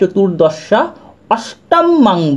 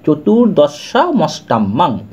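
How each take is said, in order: First: The two words are said separately, split apart. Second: The two words are run together into one. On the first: "এটাকে কেটে নেবেন" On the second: "দুটোকে সন্ধি করে বলা হচ্ছে"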